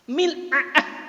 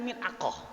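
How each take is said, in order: First: The middle consonant is a glottal catch. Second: The middle consonant is a deep q sound. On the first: This is the Egyptian form. "Kalau Mesir mil'a'ah" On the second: This is the standard form. "Kita kan belajar mil'aqah"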